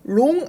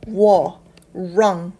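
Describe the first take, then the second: First: "wrong" said with a plain L-like start, the wrong way; "wrong" with a flat L sound, shown as the wrong way; wrong not like this. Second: "were, wrong" with a rounded W-like R start; "wrong" opened with a rounded R, slow and loud. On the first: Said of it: "wrong 아니고요". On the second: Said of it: "이렇게 발음을 하셔도 됩니다". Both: Shown as a demonstration.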